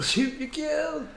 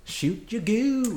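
First: Slow, higher stretched-out goofy voice; silly drawn-out echo. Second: Slow, high, stretched-out goofy voice; silly drawn-out voice. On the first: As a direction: echo it even higher and slower. Echoing the silly catchphrase. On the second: Silly catchphrase voice. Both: Pretend.

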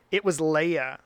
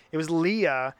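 First: Leah said LAY-uh; Hebrew-style pronunciation. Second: Said in the usual way. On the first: Shown as a demonstration. Correcting a name while reading scripture aloud, Leah as LAY-uh. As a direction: say Leah with an "ay" in the first syllable. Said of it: "her name is actually pronounced Leah". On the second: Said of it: "her name is actually pronounced Leah, but".

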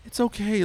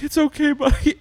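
First: Sister comforting. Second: Comforting. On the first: Like, rubbing his back. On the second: Dad comforts bawling son. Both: Retold or imitated.

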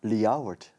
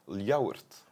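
First: Ljouwert, said in Frisian as lee-ow-wert, falling; the Frisian name Ljouwert, said the local way; Frisian pronunciation. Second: Ljouwert, said in Frisian as lee-ow-wert; the Frisian name Ljouwert, said the local way; Frisian pronunciation. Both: Shown as a demonstration. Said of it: "zeggen wij in".

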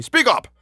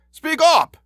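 First: High-pitched impatient order. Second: Loud, very high-pitched shout; shouted order. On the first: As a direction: order it irritably, voice raised in pitch. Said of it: "said Johnston impatiently". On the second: Inspector to the dazed constable, shouting. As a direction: shout it in exasperation. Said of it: "shouted the inspector". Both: A narrator's reading.

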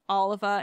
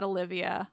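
First: "Oliva" with no "i" sound before the final "a"; name said right. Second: "Olivia" with an extra "i" sound before the final "a"; common wrong name. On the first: Host confirms the listener's spelling of the name, "Oliva" ending "-va". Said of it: "you got my name right". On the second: Host shows the mistaken name, "Olivia" ending "-vee-a". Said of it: "and not Olivia". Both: Shown as a demonstration.

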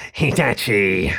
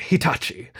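First: Slow, drawn-out rat-man radio voice; crackly rat villain. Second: Said in the usual way. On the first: A narrator's reading. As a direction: announce the name slowly as a rat-like foe. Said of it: "crackly and slightly squeaky".

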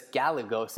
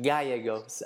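First: Gallegos with the two L's as an English L; English-style pronunciation. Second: Gallegos with the double L as a Y; Spanish pronunciation. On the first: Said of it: "You say it with two L's". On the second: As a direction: say Gallegos the Costa Rican Spanish way. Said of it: "I was gonna pronounce it in Spanish". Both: Shown as a demonstration.

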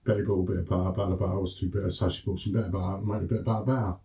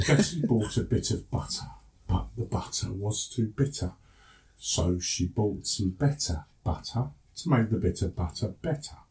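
First: Rapid-fire Cockney, words run together; quick Cockney. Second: Slow, careful international English accent; an international English accent, measured and easy to follow. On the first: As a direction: rattle it off in Cockney as if to your brothers. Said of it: "how it sounds when I speak to my brothers quickly". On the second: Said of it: "speak to you now in my international voice". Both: Shown as a demonstration.

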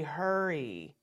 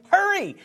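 First: A slow, soft, low "Hurry" that drifts down with no urgency; lazy hurry. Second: "Hurry" snapped out much higher and louder with a sharp fall; urgent hurry. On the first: Teacher demonstrating the wrong, unhurried way to tell a child to hurry. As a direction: let "Hurry" sag as if nothing matters. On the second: Teacher showing the urgent way to tell a child to hurry. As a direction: fire off "Hurry" like you really mean it. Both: Shown as a demonstration. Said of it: "they don't really think that you're saying, "Hurry".

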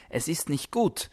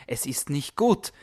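The two takes are said the same way.

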